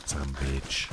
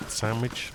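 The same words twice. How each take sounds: First: Low, soft put-on answering voice; mock answer. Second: Said in the usual way. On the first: Streamer answering for the viewer, low soft put-on voice.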